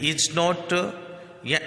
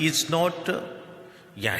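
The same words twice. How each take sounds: The two takes are said the same way.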